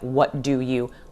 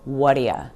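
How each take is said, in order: First: The last word is a full 'you'. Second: The last word is reduced to 'ya'. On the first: "It sounds nothing like what do you?" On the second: "the word you usually reduces to ya"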